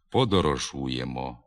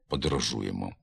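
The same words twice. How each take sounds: First: The first and last vowels sound full and clear. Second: The first and last vowels sound weak and reduced. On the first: The speaker calls it right. "Вимовляємо" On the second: The speaker calls it wrong. "а не"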